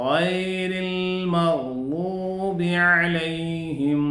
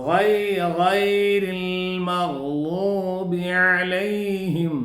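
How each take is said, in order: Both takes have the same delivery.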